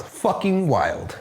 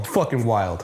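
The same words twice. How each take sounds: First: "Fucking wild" stretched out very slowly; drawn-out emphasis. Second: Said in the usual way. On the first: Real, not acted. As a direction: draw out each word of "Fucking wild" for emphasis. Repeats the verdict for emphasis.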